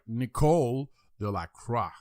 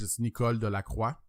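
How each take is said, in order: First: The name is said with an English pronunciation. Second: The name is said with a French pronunciation. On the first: "I try to pronounce it like English wise" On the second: "In French"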